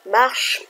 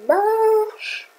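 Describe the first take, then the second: First: Said in the usual way. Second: MARCHE stretched out long and high; long, high-pitched "Marche"; drawn-out plea. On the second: Real, not acted. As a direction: stretch the vowel of Marche high, willing it to work. Willing the program to work.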